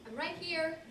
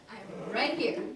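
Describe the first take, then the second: First: Higher-pitched reply, held on HERE; puzzled reply. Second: Louder, emphatic RIGHT HERE; insistent reply. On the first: Woman answering Bob who has to see her, puzzled and higher. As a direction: point out your presence, pitched up. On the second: Woman waving at Bob, insisting loudly she is present. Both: Acted.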